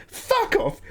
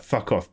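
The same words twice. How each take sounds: First: Much higher, squealed mock outrage; squeaky indignant retort. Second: Said in the usual way. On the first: English person snapping back at a class taunt, squealed much higher. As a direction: shoot the pitch way up in mock fury.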